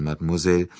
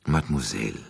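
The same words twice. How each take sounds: First: Said in the usual way. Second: Etwas tiefer und leiser, väterlich; väterlich gütig. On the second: A narrator's reading. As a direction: sanft und gütig wie ein Vater. (väterlich gütige Anrede an die junge Frau) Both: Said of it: "es klang väterlich gütig".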